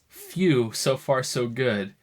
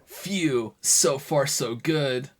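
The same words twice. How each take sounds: First: It is read in a plain voice. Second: It is said in a Sonic character voice.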